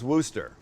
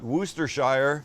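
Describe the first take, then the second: First: The final shire syllable is left out. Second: The final shire syllable is clearly pronounced. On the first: The speaker calls it right. "it's just Worcester" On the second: The speaker calls it wrong. "We learned it's not Worcestershire"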